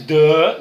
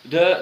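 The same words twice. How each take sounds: First: The vowel is stretched out long. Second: The vowel is short and quick. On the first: The speaker calls it wrong. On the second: The speaker calls it right.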